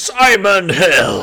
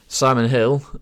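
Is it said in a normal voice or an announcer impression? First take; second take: announcer impression; normal. First: It is said like the X Factor announcer. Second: It is said in a flat, normal voice.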